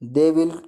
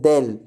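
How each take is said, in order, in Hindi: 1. यह दो पूरे शब्दों की तरह बोला जाता है। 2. यह एक सिलेबल में संक्षिप्त हो जाता है। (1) "दे विल को" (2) "हम लिख बोल सकते हैं देल"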